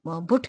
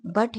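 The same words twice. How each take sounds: First: 'बुट' with the vowel of put; hypothetical mispronunciation. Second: 'बट' with an open uh vowel; correct pronunciation. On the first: Teacher questioning why but isn't said so, mispronounced. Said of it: "बुट क्यों नहीं होना चाहिए था". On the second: Teacher giving but its real vowel, correctly pronounced. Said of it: "और ये बट है". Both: Shown as a demonstration.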